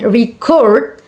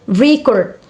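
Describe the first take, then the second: First: "record" stressed on the second syllable, re-CORD; verb stress. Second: "record" stressed on the first syllable, RE-cord; noun stress. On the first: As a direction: punch the last syllable of "record". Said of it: "record as a verb". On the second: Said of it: "record as a noun". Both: Shown as a demonstration.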